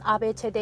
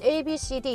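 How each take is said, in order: First: The letters are named the Latin way. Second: The letters are named the English way. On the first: This is how the letters are read in the North. "라틴어는 A, B, C, D, E, F 이렇게 나가다 보니까 발음 자체 읽는 게 다른 거예요" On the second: This is how the letters are read in the South. "우리는 A, B, C, D 이렇게 나간다면"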